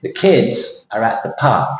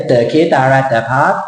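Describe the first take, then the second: First: Put-on slow, KIDS and PARK stressed with falling pitch; English sentence stress. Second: Thai accent going up and up towards the end. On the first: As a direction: hit "kids" and "park", keep "are at the" light. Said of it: "The shape of the sentence". (พูดช้า เน้น "kids" กับ "park" เสียงลง) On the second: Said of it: "Thai accent go up and up". (สำเนียงไทย เสียงสูงขึ้นท้ายประโยค) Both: Shown as a demonstration.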